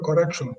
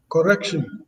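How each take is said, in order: First: Said in the usual way. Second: "correction" ending in a thin "-shin"; Ghanaian pronunciation. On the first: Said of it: "instead of correction". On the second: Shown as a demonstration. Panelist giving another example of accent, Ghanaian pronunciation. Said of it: "because they say station instead of station".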